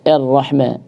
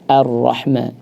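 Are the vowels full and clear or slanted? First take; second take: slanted; full. First: The vowels are slanted and not fully formed. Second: The vowels are full and clearly formed. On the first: The speaker calls it wrong. "kadang-kadang jadi miring" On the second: The speaker calls it right. "tetap ar-rahma, dijelaskan harakatnya"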